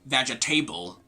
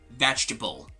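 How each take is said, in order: First: The ending is said like the word table. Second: The ending is not said like the word table. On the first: The speaker calls it wrong. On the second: The speaker calls it right.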